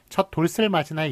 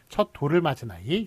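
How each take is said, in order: First: An s sound links into the particle: dolseul. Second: No s sound; the particle links plainly: doreul. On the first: The speaker calls it wrong. "이렇게 발음하는 경우 없죠" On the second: The speaker calls it right. "이런 식으로 발음하기 때문에"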